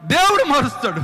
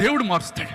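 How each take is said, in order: First: దేవుడు hit higher and louder on the repeat; దేవుడు మారుస్తాడు proclaimed louder, stress on దేవుడు; emphatic repeat. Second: Said in the usual way. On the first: Shown as a demonstration. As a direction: punch దేవుడు the second time.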